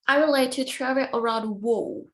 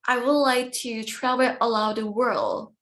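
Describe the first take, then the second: First: The last word's L is replaced by a W sound. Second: The last word is said with a clear L sound. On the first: "We say" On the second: "but we don't say like that"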